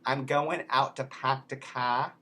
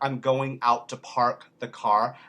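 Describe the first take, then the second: First: It is said in a Boston accent. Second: It is said in a standard American accent. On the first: "in Boston, they might say" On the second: "instead of"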